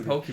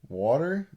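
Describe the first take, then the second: First: Water is said with an oo-like vowel. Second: Water is said with a general vowel.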